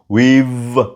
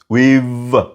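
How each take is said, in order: First: The words merge into one contracted syllable. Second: The words merge into one contracted syllable.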